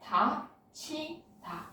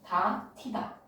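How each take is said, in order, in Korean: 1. 중간 자음은 aspirated ch 소리예요. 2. 중간 자음은 aspirated t 소리예요. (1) "다치다로 발음되지" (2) "축약 먼저 일어나겠다"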